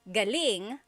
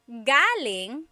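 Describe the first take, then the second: First: The stress is on the second syllable. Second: The stress is on the first syllable. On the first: It means good, great or excellent. "if the emphasis is on the second syllable" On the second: It means coming from a place. "the emphasis is on the first syllable. That means coming from"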